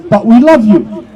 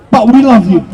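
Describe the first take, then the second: First: A sneering "but we love you", pitched lower; sarcastic love. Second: A lower, sneering "but we love you"; mock caring. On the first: Retold or imitated. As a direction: throw their hollow words back at them, mocking. Mocking the authorities' fake care again. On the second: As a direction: parody their fake affection, dropping the voice. Mocking the authorities' fake care.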